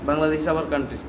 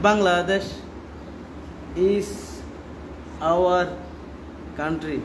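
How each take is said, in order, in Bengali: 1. বাক্যটি কোনো বিরতি ছাড়াই একটানা বলা হয়েছে। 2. বাক্যটি বিরতি দিয়ে ভাগ করা হয়েছে। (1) "এক সেন্টেন্সে চলে যেতে হবে" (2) "এরকম না"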